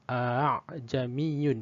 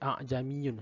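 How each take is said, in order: First: The hamza is softened, between hamza and alif. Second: The hamza is pronounced as a full glottal stop. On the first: The speaker calls it right. "tashil ... dia antara alif dengan hamzah bunyi dia tu" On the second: The speaker calls it wrong. "dia tak boleh baca a'jamiyun, salah"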